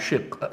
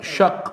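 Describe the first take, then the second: First: The vowel after sh is an i sound. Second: The vowel after sh is an a sound. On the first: The speaker calls it wrong. "My book is Kasra" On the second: The speaker calls it right. "So shaq is better than the word shiq anyway"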